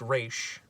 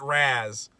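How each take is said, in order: First: The name ends in a sh sound. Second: The name ends in a z sound. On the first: The speaker calls it right. "It's actually pronounced Raish" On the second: The speaker calls it wrong. "he pronounced Terry pronounces it Raz"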